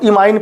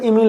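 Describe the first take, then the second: First: The second syllable sounds like 'ine'. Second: The second syllable sounds like 'een'. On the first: This is how it is read in English. "हम इसको इमाइन पढ़ते हैं वैसे अंग्रेजी भाषा में" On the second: This is how it is read in Hindi books. "Hindi में मैं देख रहा हूं किताब में"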